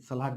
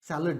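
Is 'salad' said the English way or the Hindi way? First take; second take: Hindi; English. First: It is said with the Hindi vowel sounds. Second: It is said with the English vowel sounds. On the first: The speaker calls it wrong. "सलाद नहीं हो ... हिंदी में उसे सलाद कहते हैं" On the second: The speaker calls it right. "उसका pronunciation होता है सैलड"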